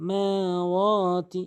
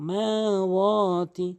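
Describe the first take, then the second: No difference in how they are said.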